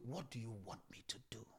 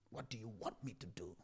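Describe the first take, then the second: First: Whisper. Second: Said in the usual way. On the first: Acted. Voicing a prayer to God.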